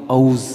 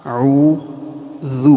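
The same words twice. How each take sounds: First: اعوذ said clipped as "auz" with a flat z; wrong pronunciation. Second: اعوذ slowly drawn out with a clear d ending; correct pronunciation. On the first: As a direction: demo of the wrong auz sound. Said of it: "اعوذ باللہ نہیں ہوتا". (غلط تلفظ: اعوذ کو "آؤز" کہنا) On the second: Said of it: "اس کو اعوذ نہیں کہنا". (اعوذ کا درست تلفظ، آہستہ اور واضح) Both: Shown as a demonstration.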